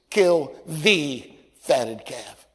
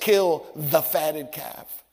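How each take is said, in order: First: The word 'the' is stressed. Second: The word 'the' is not stressed. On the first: The servants knew exactly which calf was meant. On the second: The father asks for any fattened calf.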